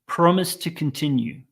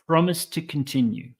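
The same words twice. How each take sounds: First: A single t sound links the first two words. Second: A single t sound links the first two words.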